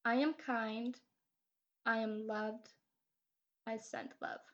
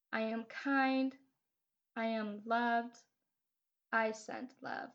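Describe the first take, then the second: No difference in how they are said.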